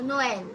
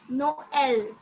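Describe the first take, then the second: First: Noel run together as one word; syllables joined. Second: Noel stretched into No, el; syllables apart. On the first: Teacher correcting the student's Noel, syllables joined. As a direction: join No and el smoothly into Noel. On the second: Teacher repeats Noel for the student, syllables apart. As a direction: say Noel in two separated syllables. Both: Shown as a demonstration. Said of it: "you have to pronounce it together".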